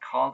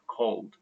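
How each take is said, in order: First: The word ends without a D sound. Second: The word ends with a D sound. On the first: The speaker calls it wrong. "it's not called" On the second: The speaker calls it right. "cold with D at the end"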